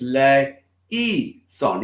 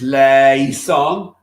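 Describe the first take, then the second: First: The middle vowels are kept as separate syllables. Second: The middle vowels merge into one sound. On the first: "And other times it's le, e, son" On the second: "It becomes one sound"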